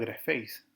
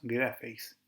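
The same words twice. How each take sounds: First: The stress is on the last syllable. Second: The stress is on the first syllable. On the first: Having been written (aorist passive participle). "El participio lleva el acento en la segunda sílaba o en la sílaba final" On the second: You write (present tense, active). "lleva su acento en la primera sílaba"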